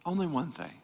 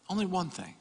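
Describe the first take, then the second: No difference in how they are said.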